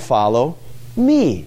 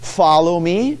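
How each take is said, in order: First: The word me is stressed. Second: The word follow is stressed. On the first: The focus is on whom to follow. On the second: The focus is on the act of following.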